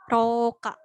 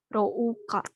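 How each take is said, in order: First: A single long o sound, no u heard. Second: An o is followed by a separate u sound. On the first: The speaker calls it right. "Jadi u-nya enggak dibaca, dibacanya panjang" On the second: The speaker calls it wrong. "sesuai sama apa yang ada ditulis di sini ini Rouka, Rouka gitu ya, ada u-nya"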